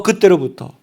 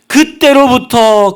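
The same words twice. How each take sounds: First: Said in the usual way. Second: 그때로부터 slow, stretched and high; emphatic 그때로부터. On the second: Shown as a demonstration. Preacher underlining the moment of healing, emphatic. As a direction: draw out 그때로부터 like a proclamation. Stressed phrase, then plain echo.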